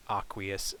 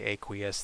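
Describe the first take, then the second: First: "aqueous" as AH-kwee-us; less common pronunciation. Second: "aqueous" as AY-kwee-us; more common pronunciation. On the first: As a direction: begin "aqueous" with an open AH. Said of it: "more people say aqueous than". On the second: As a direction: begin "aqueous" with a long A, like AY. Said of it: "I've heard more people say". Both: Shown as a demonstration.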